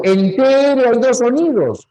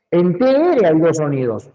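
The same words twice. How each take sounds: First: "en T R hay dos sonidos" higher and louder, leaning on "T"; "T" hit high and loud to insist there are two sounds; emphatic. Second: Said in the usual way. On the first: Shown as a demonstration. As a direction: push hard on "T" to correct the class.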